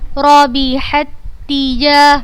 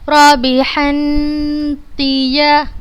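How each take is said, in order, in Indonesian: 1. Bunyi pertama menyatu tanpa dengung sengau. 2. Bunyi pertama menyatu dengan dengung sengau. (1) "Tidak dibaca dengan gunnah, tanpa gunnah" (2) "Khata, salah"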